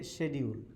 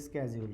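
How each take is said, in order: First: The word is said with a British pronunciation. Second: The word is said with a non-British pronunciation. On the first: This is how people in the speaker's country say it. "In our country, we say schedule" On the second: This is how the listeners say it. "and you say schedule"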